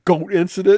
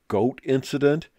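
First: Higher and louder, a lightly voiced child asking; imitating little daughters. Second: Said in the usual way. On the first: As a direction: mimic the girls' puzzled question. [name] imitates his daughters asking.

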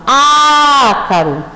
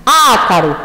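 First: "ácaro" with a very long, held Á; stressed first syllable. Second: Said in the usual way. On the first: Shown as a demonstration. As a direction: stretch the opening Á of "ácaro". ("ácaro" com o Á bem prolongado) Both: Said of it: "penúltima e antepenúltima".

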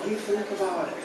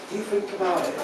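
The two takes are said the same way.

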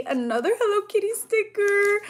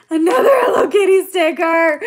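First: Said in the usual way. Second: Louder, gushing repeat with a higher voice; excited squeal. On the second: Real, not acted. Repeating the sticker name to viewers, loud and overjoyed. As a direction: repeat it louder, bursting with joy.

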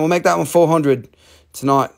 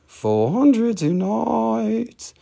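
First: Said in the usual way. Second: FOUR HUNDRED TONIGHT stretched out high and slow; drawn-out price call. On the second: Real, not acted. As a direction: hold the vowels of "Four hundred tonight", pitched up. Sing-song repeat of the price.

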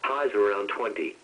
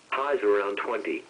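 The two takes are said the same way.

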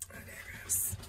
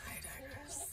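First: Breathy whispered "I digress" under the breath; whispered aside. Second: "I digress" pitched much higher, rising at the end, very soft; high sing-song. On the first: Muttering to herself while reading cards, whispered. Repeating aside, then varying it. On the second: Repeating the aside to herself, high sing-song. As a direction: float "I digress" up high and lilting. Second take of the same aside. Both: Pretend.

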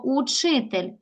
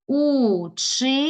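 First: Said in the usual way. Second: "Учитель" in three long, separated syllables; split into syllables. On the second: Shown as a demonstration. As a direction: stretch у, чи, тель slowly with pauses. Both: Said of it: "Поділи на склади".

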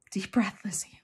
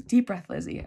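First: Whispered pep talk to herself. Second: Said in the usual way. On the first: Real, not acted. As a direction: breathe the words out, voiceless.

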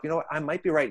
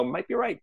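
First: Said in the usual way. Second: Higher, lightly voiced parrot echo; mock parrot. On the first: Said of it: "So just say to yourself". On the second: Inner parrot echoing your own thought, in a mock parrot voice. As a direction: squawk it back like a pet parrot, playfully. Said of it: "your parrot's gonna love it and just go".

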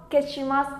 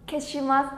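No difference in how they are said.

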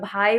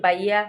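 First: ভাই with a breathy aspirated bh, said the standard way; standard pronunciation. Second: বাইয়া with a plain unaspirated b, Narsingdi dialect style; dialect pronunciation. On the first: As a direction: say ভাই with a clear aspirated bh sound. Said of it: "আমরা ভাই বলি না". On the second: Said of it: "আমরা বলি বাইয়া". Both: Shown as a demonstration.

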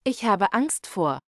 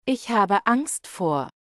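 No difference in how they are said.

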